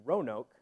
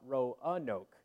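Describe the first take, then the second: First: The name is said with two syllables. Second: The name is said with three syllables. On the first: The speaker calls it right. "They say it's supposed to be two syllables" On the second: The speaker calls it wrong. "not Roanoke"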